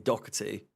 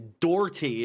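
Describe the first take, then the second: First: The name is said the British way. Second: The name is said the American way. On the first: This is how people say it locally. The speaker calls it right. "over here it would be Doherty" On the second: Nobody locally says it this way. The speaker calls it wrong. "Doherty is just not even remotely a pronunciation here"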